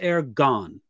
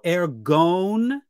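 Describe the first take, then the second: First: The second syllable has a short O vowel. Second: The second syllable has a long O vowel. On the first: It is the root form. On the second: It is the genitive plural form.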